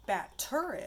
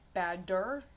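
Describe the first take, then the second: First: "Batter" with a clear T, second syllable lifted high; crisp T. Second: "Badder" with a distinct d in the middle; clear D. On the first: Teacher separating a real word from badder, crisp T. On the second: Teacher rejecting a made-up word, clear D. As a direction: say "Badder" as bad plus -der, the D clearly voiced. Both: Shown as a demonstration. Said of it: "as in the batter is ready".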